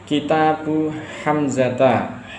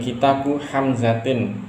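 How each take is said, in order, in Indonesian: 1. Nama itu berakhir dengan bunyi -a. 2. Nama itu berakhir dengan bunyi -in. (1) "Hamzah ini benar dengan dengan fathah" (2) "ini salah karena Hamzah tidak bisa menerima tanwin"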